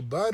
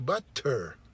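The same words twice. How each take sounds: First: The middle consonant is a soft D-like sound. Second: The middle consonant is a clear T sound. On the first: "in American English, we say butter" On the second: "in British uh, English, you say butter"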